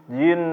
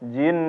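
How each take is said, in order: The two takes are said the same way.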